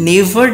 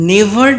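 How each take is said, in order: Both takes have the same delivery.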